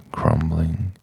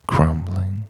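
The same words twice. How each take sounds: The two takes are said the same way.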